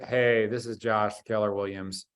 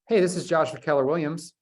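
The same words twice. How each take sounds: First: The voice sounds flat and low in energy. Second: The voice sounds somewhat more lively and energetic. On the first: The speaker calls it wrong. "click, right?" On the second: The speaker calls it right. "That sounds a little bit better"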